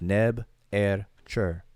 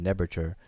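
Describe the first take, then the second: First: It is split into three separate words. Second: It is run together as one word. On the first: The name is made of three separate words. "but it's really three words" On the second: This is the everyday way the name is said. "put into one the way we pronounce it"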